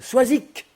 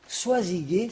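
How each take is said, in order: First: The word ends in a voiceless k sound. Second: A voiced g sound links to the following vowel. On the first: The word is at the very end of the phrase. "si le mot que vous dites, il est en finale absolue, soisic, on va entendre que" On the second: The word is linked to what follows. "on va entendre un gueux. Parce que je passe en liaison"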